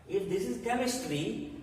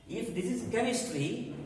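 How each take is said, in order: Both takes have the same delivery.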